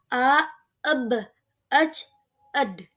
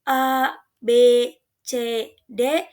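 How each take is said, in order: First: Each letter is said as its short sound. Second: Each letter is said by its full name. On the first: The speaker calls it right. "tetapi dibaca" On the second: The speaker calls it wrong. "bukan dibaca seperti itu"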